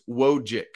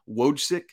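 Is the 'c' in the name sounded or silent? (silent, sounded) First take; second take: silent; sounded. First: The 'c' sound is left out of the name. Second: The 'c' sound is pronounced in the name. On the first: The speaker calls it right. "It's just Wojcik" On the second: The speaker calls it wrong. "I've been pronouncing that C"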